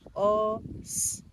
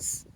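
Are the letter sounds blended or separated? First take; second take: separated; blended. First: The letter sounds are said slowly and separately. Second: The letter sounds are said quickly as one word. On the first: "Il aura tendance à découper les lettres" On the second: "Plus vite, ça donne quoi?"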